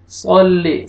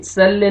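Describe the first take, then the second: First: सल्ली with a thick, dark S and rounded vowel; heavy saad. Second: सल्ले with a light, thin S and open vowel; thin saad. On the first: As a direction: fill the mouth on the first sound of सल्ली. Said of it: "सौद को आपने मोटा करके पढ़ना है". (सल्ली का सौद मोटा करके) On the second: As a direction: wrongly say सल्ले with a plain, light S. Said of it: "नहीं पढ़ना". (सल्ले में सौद पतला करके) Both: Shown as a demonstration.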